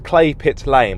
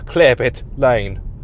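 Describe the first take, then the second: First: The first word sounds like 'clay'. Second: The first word sounds like 'clear'. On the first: The speaker calls it right. "It's Clay Pit Lane" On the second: The speaker calls it wrong. "but it goes Clear Pit Lane"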